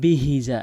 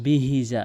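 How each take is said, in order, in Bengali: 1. h উচ্চারণটি হালকা ও শ্বাসযুক্ত। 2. h উচ্চারণটি হালকা ও শ্বাসযুক্ত।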